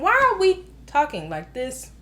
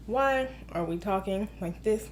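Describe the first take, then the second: First: Said in the usual way. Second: Low, soft, stilted robot voice; robot talking. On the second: Shown as a demonstration. Movie critic mocking wooden dialogue, robot voice. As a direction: recite it like an emotionless robot. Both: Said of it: "Robot talking".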